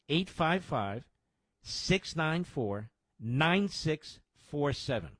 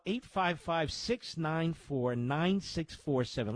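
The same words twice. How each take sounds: First: The number is read out slowly. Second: The number is read at normal speed.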